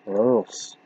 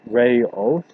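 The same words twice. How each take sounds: First: It is said with a Dutch vowel sound. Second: It is said in two parts, like ray-oos. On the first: The name is read as a Dutch word. "or it's Dutch and that pronunciation is Reus" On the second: The name is read as a Latin word. "if it's Latin it's Reus, like R A phonetically. R-A-R-A-Y and then space O O S"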